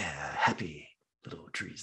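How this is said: It is said in a creepy, unsettling way. The speaker comes across as predatory and off-putting. "he comes off so creepy"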